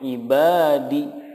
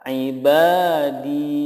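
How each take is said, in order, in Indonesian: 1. Vokal akhir di itu pendek. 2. Vokal akhir di itu panjang. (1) "itu salah" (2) "yang betul cara membacanya adalah ibadi"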